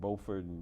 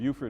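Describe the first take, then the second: First: It is the North Carolina pronunciation of the name. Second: It is the South Carolina pronunciation of the name. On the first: The speaker is a local of North Carolina. "is the way they pronounce it in North Carolina" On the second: The speaker is not from North Carolina. "Beaufort is in like uh, South Carolina"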